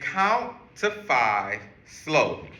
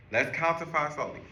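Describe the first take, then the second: First: Slow, even, spelled-out instruction; slow teaching voice. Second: Said in the usual way. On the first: Shown as a demonstration. Teacher explaining a calming trick, slowly. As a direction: lay it out slowly for kids to follow. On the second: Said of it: "is count to five slowly".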